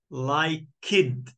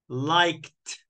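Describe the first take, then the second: First: The ending is an extra 'id' syllable. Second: The ending is a plain 't' sound. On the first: The speaker calls it wrong. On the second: The speaker calls it right. "T. So I I add ed, but I say t"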